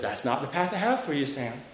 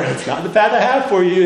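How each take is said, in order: First: It is said at a softer volume. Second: It is said at a louder volume.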